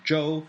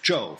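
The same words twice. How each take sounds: First: Zhou is said with the first tone. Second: Zhou is said with the fourth tone. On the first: It names the Zhou dynasty. "different character from the first tone, Zhou of the dynasty" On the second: It names the wicked last king of the Shang. "fourth tone"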